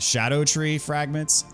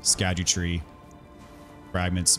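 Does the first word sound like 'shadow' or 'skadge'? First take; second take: shadow; skadge. First: The first word sounds like 'shadow'. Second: The first word sounds like 'skadge'. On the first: The speaker calls it right. "the correct pronunciation is Shadow Tree Fragments" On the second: The speaker calls it wrong. "I still call them Skadgetree Fragments by instinct"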